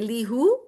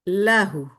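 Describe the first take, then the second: First: The first vowel is an 'ee' sound. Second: The first vowel is an 'ah' sound. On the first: The speaker calls it wrong. "that would be incorrect" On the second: The speaker calls it right. "I would say lahu"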